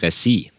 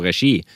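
First: The middle consonant is a plain s sound. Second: The middle consonant is an sh-like sound. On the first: The speaker calls it wrong. "og ikke resi" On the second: The speaker calls it right. "vi sier jo regi"

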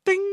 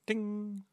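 First: The word is said loudly and forcefully. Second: The word is said softly and timidly. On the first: The bell is rung boldly. The speaker calls it right. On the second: The bell is rung hesitantly. The speaker calls it wrong.

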